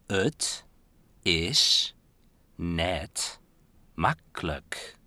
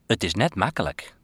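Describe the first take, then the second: First: It is spoken slowly and carefully. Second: It is spoken at a normal pace.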